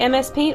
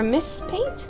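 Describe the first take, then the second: First: The first part is spelled out as letters. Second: The first part is said as one word. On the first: "M S Paint or Miss Paint?" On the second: "M S Paint or Miss Paint?"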